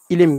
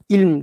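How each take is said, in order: First: A vowel separates the l and the m. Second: The l and m are said together, without a vowel. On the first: This is how it is said in everyday modern speech. "ilim gibi söylüyoruz" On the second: This is the original form of the word. "ilm demiyoruz"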